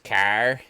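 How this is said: The word is said with an East Coast Canadian accent. "East Coast says car"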